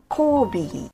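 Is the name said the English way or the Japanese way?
English. The name is said in an English way. This is how foreigners say the name. The speaker calls it wrong. "not Kobe"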